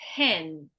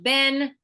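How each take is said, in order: First: The first sound is a voiceless p. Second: The first sound is a voiced b. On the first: The speaker calls it right. "this sound here is a p, so there's no voice" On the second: The speaker calls it wrong. "instead of a p ... you make it into a b"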